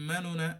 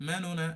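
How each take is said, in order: Both takes have the same delivery.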